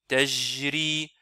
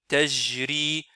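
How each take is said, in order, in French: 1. Le j sonne comme un j français. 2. Le j sonne comme un j français.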